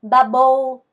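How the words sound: The b sounds are Vietnamese-style b. "어떻게 발음하냐면 바보"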